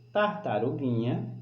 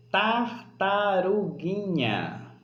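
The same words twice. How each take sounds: First: Said in the usual way. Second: "tartaruguinha" drawn out very slowly, higher, falling at the end; stretched word. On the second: Shown as a demonstration. Teacher helping pupils hear the tonic syllable, stretched word. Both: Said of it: "é preciso ouvir direitinho".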